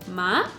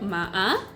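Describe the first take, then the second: First: The pitch rises steadily through the syllable. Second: The pitch dips down and then rises. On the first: The word means hemp. "si le das una entonación ascendente como ma" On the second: The word means horse. "si le das una entonación descendente ascendente como ma-a"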